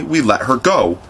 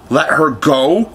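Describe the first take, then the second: First: Mildly complacent falling statement; easy, matter-of-fact answer. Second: Slow, higher rising question; drawn-out question climbing on "go"; incredulous cry. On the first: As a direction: report it as settled, falling on "go". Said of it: "Smee answered complacently". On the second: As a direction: echo it in disbelief, stretched out. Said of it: "cried Hook". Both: A narrator's reading.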